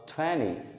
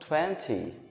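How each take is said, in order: First: The T sound is dropped. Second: The T sound is clearly pronounced. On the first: "como se não tivesse esse T aqui" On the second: "eu não falo vinte"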